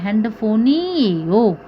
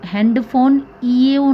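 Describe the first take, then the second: First: The final n runs into the ending. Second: The word ends before a separate ending. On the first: The speaker calls it right. "मैंने बोला है हैंडफोनी ये हो" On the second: The speaker calls it wrong. "मैंने यहाँ पे इसको हैंडफोन ईओ नहीं बोला है"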